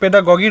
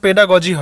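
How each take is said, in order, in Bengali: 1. দ্বিতীয় g টি একটি hard g ধ্বনি। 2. দ্বিতীয় g টি একটি সফট j ধ্বনি। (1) "বিভিন্ন জায়গাতে পেডাগগি রয়েছে" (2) "সঠিক প্রোনাউন্সিয়েশন পেডাগজি হয়"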